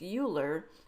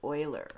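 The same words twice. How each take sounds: First: The name is read as its spelling suggests. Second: The name is not read as its spelling suggests. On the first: The speaker calls it wrong. "it looks like it should be pronounced like that" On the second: The speaker calls it right. "but in fact it is pronounced Euler"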